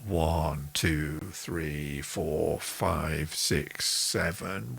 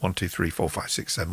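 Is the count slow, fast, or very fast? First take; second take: slow; very fast. First: The count is spoken slowly. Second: The count is spoken very fast.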